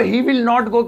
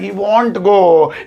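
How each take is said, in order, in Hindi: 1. Will not को दो पूरे शब्दों की तरह बोला जाता है। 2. Will not एक शब्द में सिकुड़कर won't हो जाता है। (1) "ही विल नॉट गो की जगह" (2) "थोड़ी और जहरीली इंग्लिश लगेगी"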